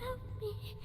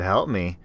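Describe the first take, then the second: First: Very high, thin and far-off plea; eerie child voice. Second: Said in the usual way. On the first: Acted. Creature mimicking the little sister, eerie. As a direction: sound like a ghost of a child. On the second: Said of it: "Oh, she said".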